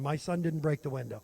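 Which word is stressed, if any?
none. All words are said at the same volume.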